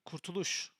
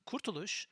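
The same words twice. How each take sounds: First: The stress is on a later syllable. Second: The stress is on the first syllable. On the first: It names the concept of liberation. "you don't put the emphasis on the first uh, syllable" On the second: It names a place. "you mean the location that you went to Kurtuluş"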